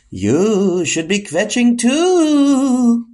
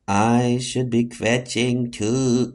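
First: High, slow, drawn-out spooky voice; eerie high-pitched suggestion, stretched out. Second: Slow, low hypnotized repeat; dazed, drawn-out lower echo; entranced echo. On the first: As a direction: coax like a hypnotic phantom, slow and high. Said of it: "not in that spooky voice". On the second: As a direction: repeat it as if under a spell. Echoes the spooky voice's suggestion. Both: Acted.

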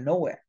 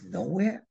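First: Said in the usual way. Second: "Nowhere?" rising high at the end; "Nowhere?" with a clear upward question tune; questioning echo. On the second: Retold or imitated. Pilot echoes the answer, questioning.

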